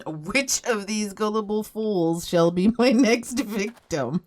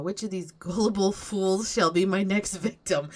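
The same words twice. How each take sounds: First: Slow, hammed-up scheming villain, breaking into a laugh; slow, hammed-up evil plotting with a giggle; mock sneaky villain. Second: Said in the usual way. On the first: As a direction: drawl it like a cartoon schemer. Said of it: "peek around and go, "Hmm". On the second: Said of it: "peek around and go".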